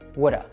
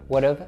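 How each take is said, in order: First: The word ends with a short uh sound. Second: The word ends with a clear v sound. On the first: "reduce just to that schwa sound" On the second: "a contraction"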